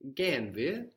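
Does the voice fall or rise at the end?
rise. It is a question, rising at the end. It asks whether we are going. "Are we going?"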